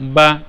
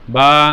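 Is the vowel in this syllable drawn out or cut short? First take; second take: cut short; drawn out. First: The vowel is cut off right away. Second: The vowel is drawn out long. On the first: The speaker calls it right. "মুখ খোলার সাথে সাথে আওয়াজটাকে বন্ধ করে দিতে হবে" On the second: The speaker calls it wrong. "টান দেওয়া যাবে না বা এরকম লম্বা করা যাবে না"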